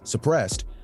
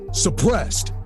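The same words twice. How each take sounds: First: The word is said loosely, its sounds blurred. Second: The word is said crisply, every sound clear. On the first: The speaker calls it wrong. "you can't really hear him saying that" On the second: The speaker calls it right. "I have to really cleanly cut through"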